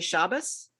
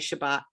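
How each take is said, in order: First: It has a traditional Eastern European Jewish pronunciation. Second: It has a modern Hebrew or Sephardic pronunciation. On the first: The speaker comes from a traditional Eastern European background. "If you come from an, a traditional Eastern European background, you would say Shabbos"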